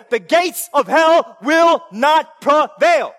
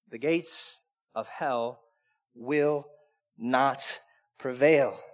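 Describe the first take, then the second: First: Slow, loud, punching each word; shouted proclamation. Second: Much lower and softer, very slow; quiet, certain, word by word; hushed proclamation. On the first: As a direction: thunder God's answer. God's answer shouted. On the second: God's answer whispered-soft. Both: Acted.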